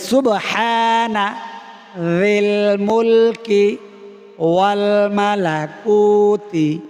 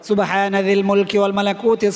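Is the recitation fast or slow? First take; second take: slow; fast. First: It is recited slowly, with pauses. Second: It is recited quickly, without pauses. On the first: "আমি বলে একটু থামবো" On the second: "তাড়াতাড়ি পড়লে এভাবে পড়ে"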